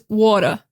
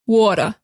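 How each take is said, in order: First: It is said in a New York accent. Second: The same.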